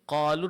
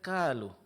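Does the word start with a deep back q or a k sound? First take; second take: back q; k. First: It begins with a deep back q sound. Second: It begins with a plain k sound. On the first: The speaker calls it right. "Seperti qalu" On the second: The speaker calls it wrong. "dibaca kalu"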